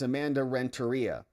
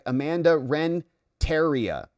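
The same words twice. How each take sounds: First: The name is pronounced in the usual, normal way. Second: The name is pronounced in an odd, peculiar way. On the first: The speaker calls it right. "it's Amanda Renteria" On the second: The speaker calls it wrong. "that's not how you say it"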